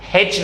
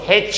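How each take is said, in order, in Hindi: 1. यह 'h' ध्वनि से शुरू होता है। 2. यह 'h' ध्वनि से शुरू होता है।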